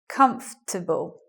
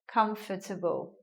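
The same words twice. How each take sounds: First: It is said with three syllables. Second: It is said with four syllables. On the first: The speaker calls it right. "now we get a three-syllable word" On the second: The speaker calls it wrong. "in a four-syllable way like this"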